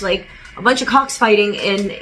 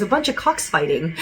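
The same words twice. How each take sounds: First: Said in the usual way. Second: Laughing. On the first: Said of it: "He goes". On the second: Retold or imitated. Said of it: "he goes".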